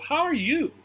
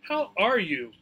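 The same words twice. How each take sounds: First: The word you carries the stress. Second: The word are carries the stress. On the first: The speaker is returning the question to the other person. "He's going to stress the part that's about me" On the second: The speaker is opening the greeting, a little surprised. "Here we might stress the word are"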